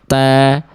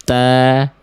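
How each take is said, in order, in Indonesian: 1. Bunyi t hanya punya hembusan napas yang sedikit. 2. Bunyi t hanya punya hembusan napas yang sedikit.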